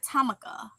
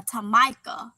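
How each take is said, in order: First: "Tamika" as TAM-uh-kuh; imitated mispronunciation. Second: "Tamika" as tuh-MY-kuh; imitated mispronunciation. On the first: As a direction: hit the first syllable of "Tamika", swallow the middle. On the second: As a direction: say the middle of "Tamika" like "my". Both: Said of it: "So people be like".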